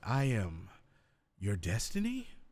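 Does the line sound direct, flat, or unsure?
unsure. It is said confused, like a question. The speaker doubts the claim. "there could be a confused, like, ... now you sound unsure"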